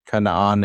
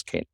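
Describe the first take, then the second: First: Canaan said the Hebrew way, kuh-nah-AHN; Hebrew pronunciation. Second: Canaan said the English way, KAY-nun; English pronunciation. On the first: Teacher gives class the Hebrew name, Canaan as kuh-nah-AHN. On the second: Teacher translates for class, Canaan in English as KAY-nun. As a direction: say Canaan as KAY-nun, first syllable stressed. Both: Shown as a demonstration. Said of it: "Canaan is Canaan".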